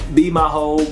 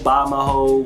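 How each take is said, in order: First: The first word sounds like 'bee'. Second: The first word sounds like 'buy'.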